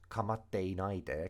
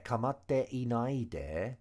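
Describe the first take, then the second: First: No extra vowel is heard before nai. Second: An extra vowel is heard before nai. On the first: "the e's been omitted because people do that a lot" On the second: "and then e nai it should be"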